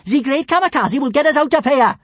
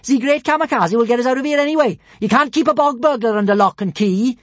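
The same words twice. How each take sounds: First: High, loud boastful shout. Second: High, loud boast; boastful shout. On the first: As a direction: proclaim it proudly. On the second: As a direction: shout it with pride. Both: Acted. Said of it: "shouted Kamikaze".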